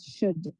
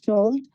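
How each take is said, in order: First: "should" with a silent L; "should" rhyming with "good", L dropped; correct should. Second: "should" with the L wrongly sounded; "should" said as if the L were not silent; mispronounced should. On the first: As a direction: say "should" with no L sound, straight from vowel to D. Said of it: "The correct pronunciation for that is". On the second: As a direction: say "should" with an audible L before the D. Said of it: "We can't pronounce it as". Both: Shown as a demonstration.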